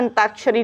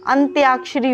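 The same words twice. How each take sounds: First: अंताक्षरी said as an-taa-ksha-ri with no "ya" glide; teacher voices the common mistake अंताक्षरी, plain "taa" with no "y"; wrong pronunciation. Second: अंत्याक्षरी said with a clear "tya" glide after "ant"; teacher sounds out अंत्याक्षरी as an-tya-ak-shri; correct pronunciation. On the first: Teacher warns students against saying अंताक्षरी as an-taa-kshari. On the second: Teacher shows students the correct form: अंत्याक्षरी with "tya" spoken clearly. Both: Shown as a demonstration. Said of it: "अंताक्षरी नहीं होता".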